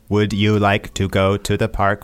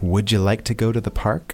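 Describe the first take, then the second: First: Said in a stiff, robotic way. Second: Said in a relaxed, natural way. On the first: The speaker calls it wrong. "Like a robot" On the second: The speaker calls it right. "so we can change that"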